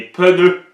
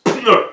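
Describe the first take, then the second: First: "pneus" with an extra e, peu-NEU, said high and loud; childish "pneus" with an added syllable; child's peuneus. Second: "pneu" said as one syllable with P and N together; "pneu" without any vowel between P and N; correct, tight "pneu". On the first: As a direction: imitate a child adding a vowel: "peuneus". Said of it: "ils ajoutent des E". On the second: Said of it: "la phonétique est claire". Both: Shown as a demonstration.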